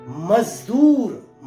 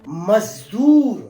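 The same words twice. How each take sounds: Both takes have the same delivery.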